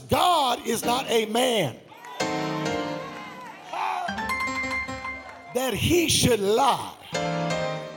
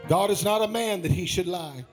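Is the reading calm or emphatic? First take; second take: emphatic; calm. First: It is read with stronger, more forceful emphasis. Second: It is read in a plainer, less forceful voice.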